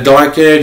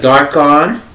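First: The second syllable has a reduced vowel, like 'en'. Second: The second syllable has an 'o' vowel, like 'on'. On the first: This is how the owner of the name says it. "but I pronounce it like a Darken" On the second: This is how the spelling suggests it should sound. "It's supposed to pronounce like Darkon"

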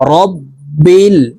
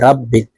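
First: The first syllable is said with an 'o' vowel. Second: The first syllable is said with an 'a' vowel. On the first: The speaker calls it right. "র কে রই বলতে হবে। র বা জবর রব।" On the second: The speaker calls it wrong. "এখানে রাব্বিল বলে থাকি। রাব্বিল, র কে রা বলা যাবে না"

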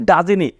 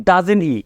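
No difference in how they are said.

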